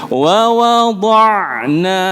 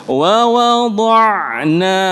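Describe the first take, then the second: The two takes are said the same way.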